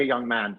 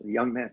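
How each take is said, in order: First: Said in the usual way. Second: Put-on young man echoed with an amused rise. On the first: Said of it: "she said". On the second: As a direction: savour young man, rising, tickled. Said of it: "I said".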